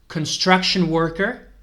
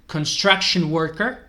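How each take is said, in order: The two takes are said the same way.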